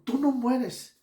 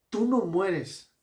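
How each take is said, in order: First: "tú no mueres" said higher and louder, with "no" stressed; Habakkuk praising God, raising "no". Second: "Tú no mueres" slow, with "no" stressed; quoting the better translation, slow and stressed. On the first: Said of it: "Señor, tú eres un Dios eterno". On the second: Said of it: "una traducción más probable podría ser". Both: Shown as a demonstration.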